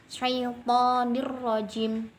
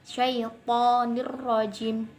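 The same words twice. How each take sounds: The two takes are said the same way.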